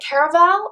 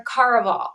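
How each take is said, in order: First: Caraval said as "CARE-uh-val". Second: Caraval said as "CAR-uh-vahl". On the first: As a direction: open Caraval with the sound of "care". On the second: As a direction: open Caraval with the sound of "car". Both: Shown as a demonstration. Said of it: "do you say Caraval or Caraval".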